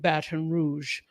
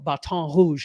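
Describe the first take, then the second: First: The name is said the everyday way. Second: The name is said the careful local way.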